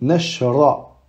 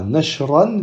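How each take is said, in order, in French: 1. Le mot finit par une voyelle, sans 'n'. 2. Le mot finit par un son 'n' ajouté. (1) "mais nashra" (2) "ne dit pas nashran"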